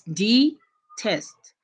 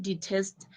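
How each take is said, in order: First: "detest" slowly split into two beats, de, test; syllable by syllable. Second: Said in the usual way. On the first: Shown as a demonstration. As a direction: say "detest" with a clear gap between de and test. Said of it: "you tap your hands". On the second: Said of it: "When you pronounce the word".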